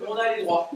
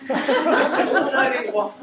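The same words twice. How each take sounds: First: Said in the usual way. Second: Slow, louder gloating with a laugh; laughing triumphant gloat; gleeful triumph. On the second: Acted. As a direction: savour the victory, stretch it out. Triumph after the call.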